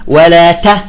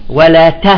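The two takes are said the same way.

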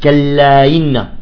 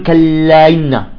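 The two takes are said the same way.

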